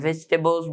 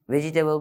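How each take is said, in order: First: "ভেজিটেবলস" said as three syllables, vej-te-bols; fewer syllables. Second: "ভেজিটেবল" with an extra syllable, ve-ji-te-bol; problem pronunciation. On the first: Teacher explaining the syllable count, shortened correct pronunciation. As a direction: run "j" straight into "t" in "ভেজিটেবলস". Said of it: "সিলেবলও কম হয়". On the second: Teacher showing the pronunciation problem, extra-syllable mispronunciation. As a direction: keep the "ji" full in "ভেজিটেবল". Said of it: "প্রোনাউন্সিয়েশনের সমস্যা হয়". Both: Shown as a demonstration.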